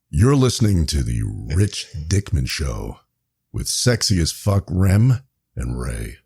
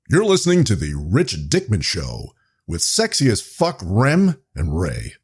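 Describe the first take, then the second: First: It is read in a plain voice. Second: It is read in an AM radio DJ voice.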